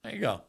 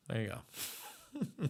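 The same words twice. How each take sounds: First: Said in the usual way. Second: Slow, laughing through the words. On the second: Real, not acted. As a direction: let it dissolve into a laugh. Laughing at the clip.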